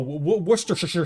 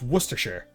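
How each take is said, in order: First: The word is drawn out with every syllable sounded. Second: The word is said short with few syllables. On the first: The speaker calls it wrong. "They don't know how to pronounce Worcestershire" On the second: The speaker calls it right. "it's Worcestershire. Come on"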